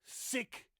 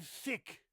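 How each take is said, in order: First: "sick" with a crisp initial S; stressed "sick", S not TH; contrasted S. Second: "thick" with a clear initial TH; stressed "thick", TH not S; contrasted TH. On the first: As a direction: say "sick" loudly to contrast with thick. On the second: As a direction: say "thick" high and loud to contrast with sick. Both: Shown as a demonstration. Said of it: "the difference between sick and thick".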